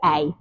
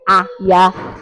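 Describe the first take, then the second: First: The two letters make one joined sound. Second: The two letters are sounded separately. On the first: The speaker calls it right. "we say" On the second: The speaker calls it wrong. "We don't say"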